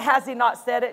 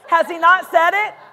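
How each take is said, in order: First: It is said in a plain, neutral way. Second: It is said with sassy, mocking attitude.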